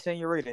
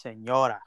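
First: "senorita" said with the extra "-ita" ending, se-nyo-REE-ta; wrong form. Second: "senora" said se-NYO-ra, ending on "-ra" with no "-ita"; corrected form. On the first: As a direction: say "senorita", the longer diminutive, as the wrong word. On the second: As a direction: say "senora" short, stress the middle "NYO". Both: Shown as a demonstration. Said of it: "It's not senorita. It's senora".

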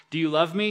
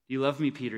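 First: Louder and higher, "love" pressed like an accusation; shaming question. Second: Gentle question. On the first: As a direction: ask it to shame him. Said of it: "If Jesus wanted to shame Peter". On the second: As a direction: ask it kindly, looking ahead. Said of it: "He points forwards". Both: Retold or imitated.

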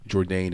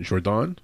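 First: Said in the usual way. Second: French accent. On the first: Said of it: "saying Jourdain". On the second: Shown as a demonstration. Host guessing at the fighter's name, French accent. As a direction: give the name a French pronunciation. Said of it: "French accent".

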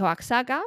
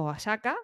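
First: Oaxaca said with a ks, "oak-SA-ka"; x pronounced as ks. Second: Oaxaca said with an s, "o-a-SA-ka"; x pronounced as s. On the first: Vlogger unsure of the Mexican name, Oaxaca with a ks. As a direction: sound the x in Oaxaca as ks. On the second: Vlogger trying the other way, Oaxaca with an s. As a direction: soften the x in Oaxaca to plain s. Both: Shown as a demonstration. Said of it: "como se diga".

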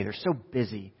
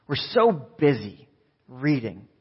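First: Said in the usual way. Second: So drawn out slowly, then reading lands as the twist; slow stress on so. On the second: Shown as a demonstration. The pastor turns the excuse into a punchline, slowly stressing so. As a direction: stretch the word so slowly before reading.

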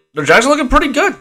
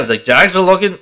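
First: Much higher, eager and upbeat; excited. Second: Said in the usual way. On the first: Real, not acted. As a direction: lift it with real excitement. Repeats phrase with more energy.

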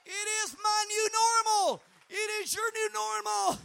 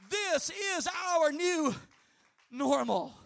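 First: Loud high shouted preaching line; preacher shouting the refrain. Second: Slow, spaced-out refrain with a pause before normal; preacher slowing the refrain for emphasis; drawn-out refrain. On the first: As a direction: deliver the refrain at full force. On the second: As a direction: drag out "This is our new" then land "normal". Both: Acted.

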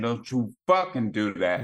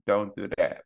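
First: Fucking hit hard and a bit louder; stern dad stressing fucking; firm warning, stress on fucking. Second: Said in the usual way. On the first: Shown as a demonstration. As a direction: lean on fucking like a parent laying down the law. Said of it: "But they understand". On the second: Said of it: "they don't understand".

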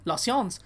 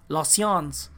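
First: "la science" repetido a la francesa; French pronunciation. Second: "La science" dicho a la francesa, nasal y sin la e final; French pronunciation. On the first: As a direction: imita el audio: "la science" en francés. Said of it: "le puse a play". ("la science" con acento francés) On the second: ("La science" en francés) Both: Shown as a demonstration.

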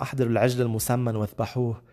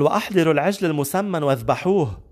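First: Said in the usual way. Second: A mildly elated, raised-voice order; joyful command. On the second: Acted. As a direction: proclaim the father's order, higher pitched. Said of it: "بفرح قال لهم".

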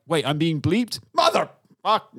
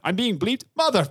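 First: Higher, louder indignant burst; mock-indignant Deadpool outburst; mock outrage. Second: Higher, louder indignant burst stopped short; bleeped-out mock outrage; mock outrage, cut off. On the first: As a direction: catch yourself being bleeped and explode. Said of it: "go like". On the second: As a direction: explode then get cut off mid-swear. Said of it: "he was like".

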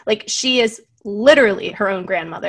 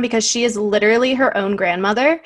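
First: "literally" punched hardest; stress on literally. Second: "her" lifted and leaned on; stress on her. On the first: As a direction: hit "literally" as the key word. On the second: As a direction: push the word "her" in "her own grandmother". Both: Shown as a demonstration.

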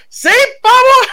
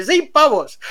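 First: Much higher, louder, slow cry of disbelief; astonished shout. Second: Said in the usual way. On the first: Real, not acted. Telling friends the pills cost nothing, astonished shout. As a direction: blurt it out, stunned at the price.

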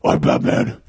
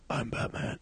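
First: Loud, rasping whisper-growl; over-the-top throaty Batman. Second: Soft, whispered superhero line; hushed, understated Batman whisper; nineties Batman. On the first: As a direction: force it out as a hoarse superhero. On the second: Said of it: "nineties Batmans who are like". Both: Acted.

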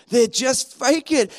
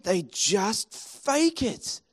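First: Said in the usual way. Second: Softer, slow and hushed; quiet, slow. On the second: Shown as a demonstration. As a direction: let it sink in quietly.

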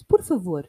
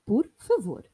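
First: Por favor said loud with a falling end, Portuguese style; Portuguese pronunciation. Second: Por favor repeated with a falling end, Portuguese style; Portuguese pronunciation. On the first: Teaching a listener how to say please, Portuguese Por favor. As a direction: say Por favor clearly, stress on por. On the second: Repeating the word for learners, Portuguese Por favor. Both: Shown as a demonstration. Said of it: "how to say in Portuguese".

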